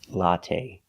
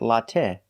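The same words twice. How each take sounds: First: The final vowel is a long A. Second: The final vowel is short. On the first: The speaker calls it right. "but the long A" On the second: The speaker calls it wrong. "Not the short latte"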